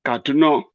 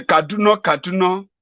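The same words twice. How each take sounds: First: Said in the usual way. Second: High, wondering repeat of the name; muddled old man. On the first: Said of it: "See, like this". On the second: Pretend. Confused Buhari repeating the town name in wonder. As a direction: say it as if the name means nothing.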